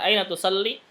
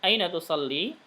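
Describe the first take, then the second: First: The final vowel of tusalli is cut short. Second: The final vowel of tusalli is held long. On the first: The speaker calls it wrong. "itu salah berarti" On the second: The speaker calls it right. "panjang dua harokat"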